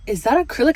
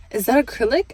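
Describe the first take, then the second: First: Startled high question, louder; shocked. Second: Higher, louder disbelieving repeat; double take. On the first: Customer seeing acrylic on her toes, shocked. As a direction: blurt it out in disbelief. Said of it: "I was so shocked". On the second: Customer double-checking her toes, stunned rising question. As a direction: ask again in disbelief, rising. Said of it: "did a double take". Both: Retold or imitated.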